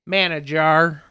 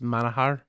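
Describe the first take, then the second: First: The middle consonant is an English j sound. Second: The middle consonant is an h sound. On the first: The speaker calls it wrong. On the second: The speaker calls it right.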